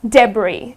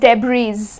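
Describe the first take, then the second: First: The final s is silent. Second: The final s is sounded. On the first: The speaker calls it right. "It is debris" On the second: The speaker calls it wrong. "though it is spelled with a S, but it's not pronounced as debris"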